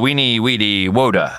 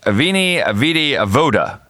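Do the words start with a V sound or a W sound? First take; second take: W; V. First: Each word begins with a W sound. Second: Each word begins with a V sound.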